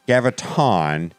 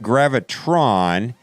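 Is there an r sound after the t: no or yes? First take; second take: no; yes. First: No r sound follows the t. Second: An extra r sound follows the t. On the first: The speaker calls it right. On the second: The speaker calls it wrong. "not gravitron"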